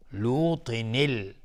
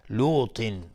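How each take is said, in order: First: لوطن ال said slowly, with a clear kasra joining لوطن to ال; slow kasra demo. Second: Said in the usual way. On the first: Shown as a demonstration. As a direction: spell out لوطن ال syllable by syllable.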